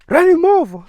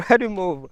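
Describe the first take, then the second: First: High, loud yell; acted shout. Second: Raised, higher voice, short of yelling; milder mock shout. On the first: Clarence's friend in the movie, shouting an order. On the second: Quoting Clarence's friend after laughing, a milder mock shout. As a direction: repeat the yell at reduced force. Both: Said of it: "Clarence's friend was like".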